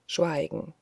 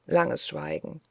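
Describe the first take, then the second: First: Said in the usual way. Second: Langes Schweigen breathed out, voiceless and softer; whispered langes Schweigen; hushed repeat. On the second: A narrator's reading.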